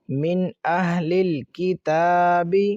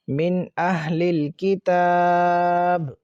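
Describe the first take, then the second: First: The last word ends with a short vowel. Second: The last word ends on a bare consonant.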